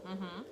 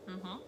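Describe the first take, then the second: The two takes are said the same way.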